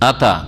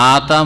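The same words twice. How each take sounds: First: The first vowel is short and quick. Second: The first vowel is drawn out long. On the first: He came. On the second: He gave.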